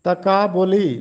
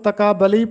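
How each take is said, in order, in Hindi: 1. 'b' के बाद का स्वर 'u' है। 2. 'b' के बाद का स्वर 'a' है। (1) "जबकि पेश है" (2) "बे पर ज़बर के साथ"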